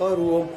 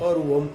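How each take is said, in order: The two takes are said the same way.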